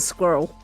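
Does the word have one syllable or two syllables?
one. The word is said with one syllable. "ends up with one syllable in many American accents"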